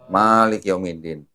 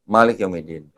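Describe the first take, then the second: First: The first vowel of Malik is held long. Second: The first vowel of Malik is kept short. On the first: It means owner or master of the Day of Judgement. "Malik Yomidinnya panjang" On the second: It means king of the Day of Judgement. "Malik Yomidinnya pendek"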